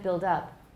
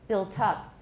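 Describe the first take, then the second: First: The T is a quick tap like D. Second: The T is a puff of air. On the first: It sounds like the present tense of build. The speaker calls it wrong. "in American it's often pronounced as a tap, but I don't say build up" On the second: It is the past participle of build. The speaker calls it right. "Why do I say built up with aspiration?"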